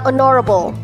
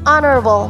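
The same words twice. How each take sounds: First: The stress is on a later syllable. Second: The stress is on the first syllable. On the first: The speaker calls it wrong. "not honorable" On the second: The speaker calls it right. "the word stress here is on the first syllable"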